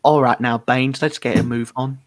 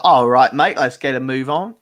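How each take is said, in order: First: Lightly put-on Northern English accent; Nathan impression. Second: Imitating a chivvying Cockney trainer. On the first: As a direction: attempt a Northern English voice, sliding toward Cockney. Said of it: "that's my impression of Nathan". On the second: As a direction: put on a Cockney accent, hitting the opening hard. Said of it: "my personal trainer is Cockney".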